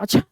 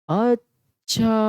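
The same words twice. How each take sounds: First: It sounds surprised, like a short question. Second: It is drawn out, sounding understanding.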